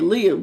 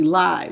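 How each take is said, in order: First: The vowel sounds like the one in 'give'. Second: The vowel sounds like the one in 'five'. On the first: The speaker calls it wrong. "I think I said live" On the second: The speaker calls it right. "it's supposed to be live, like how I'm live"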